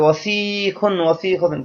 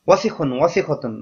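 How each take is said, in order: First: The middle vowel is drawn out long. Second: The middle vowel is short and quick. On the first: The speaker calls it wrong. "সেই ওজনে এই ওয়াসিখুনকেও ফেলে দেয়" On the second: The speaker calls it right. "এই শব্দটা দ্রুত করতে হবে, কোথাও কোনো মদ নেই, টান নেই"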